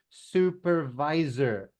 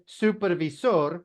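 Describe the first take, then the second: First: The word is said with an English pronunciation. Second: The word is said with a Spanish pronunciation. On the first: The speaker calls it right. "In English" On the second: The speaker calls it wrong. "which is Spanish"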